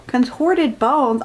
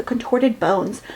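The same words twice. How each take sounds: First: Slow, disbelieving repeat of contorted bones; dragging out Contorted bones? in disbelief; incredulous. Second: Said in the usual way. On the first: Real, not acted. Reader mocking the book's words, slow disbelief. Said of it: "I don't think her bones are messed up".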